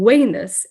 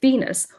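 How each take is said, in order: First: The word begins with a W sound. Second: The word begins with a V sound. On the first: This is the classical restored Latin pronunciation. "The letter V is pronounced as a U" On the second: This is the church Latin pronunciation. "instead of the goddess Venus"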